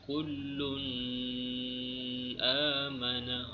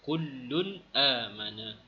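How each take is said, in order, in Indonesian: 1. Bunyi n sengau dan dipanjangkan. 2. Bunyi n pendek dan dilepaskan dengan jelas. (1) "kita tak baca kullun amana. Oh, salah" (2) "Kita kena baca dengan jelas"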